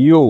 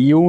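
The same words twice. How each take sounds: First: "ইউ" with the force on the উ; stress on the U. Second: "ইউ" with even weight on both sounds; the wrong way, a flat Bengali "ইউ". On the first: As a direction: lean hard on the উ of "ইউ". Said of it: "pressure বা ফোর্সটা পড়বে হচ্ছে উ এর উপরে". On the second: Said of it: "ইউ না কিন্তু guys". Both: Shown as a demonstration.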